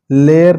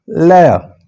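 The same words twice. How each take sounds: First: लेयर with a narrow "ay" and final r; wrong pronunciation. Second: लेयर with open "eh" gliding to "a", no r; correct pronunciation. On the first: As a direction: say लेयर as a flat "ler". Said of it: "लेयर नहीं". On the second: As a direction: widen लेयर into "leh-ya". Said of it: "थोड़ा सा side पे एह sound है". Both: Shown as a demonstration.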